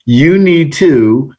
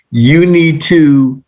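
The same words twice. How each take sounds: The two takes are said the same way.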